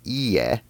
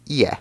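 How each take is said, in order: First: "ie" with a long held I, Japanese for no; long vowel. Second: "ie" with a short I, Japanese for house; short vowel. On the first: Teacher contrasting Japanese words, "ie" with lengthened I. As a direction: stretch the I in "ie": ee-eh. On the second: Teacher contrasting Japanese words, "ie" with short I. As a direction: keep the I in "ie" brief: i-eh. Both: Shown as a demonstration. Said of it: "the length on the vowel I also helps separate them".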